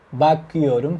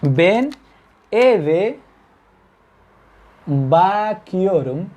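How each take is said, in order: First: Said in the usual way. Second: Slowly drawn out. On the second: Shown as a demonstration. Teacher modelling bakiorum slowly for the class. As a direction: stretch bakiorum very slowly with a rise. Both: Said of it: "fíjense la lógica de esto".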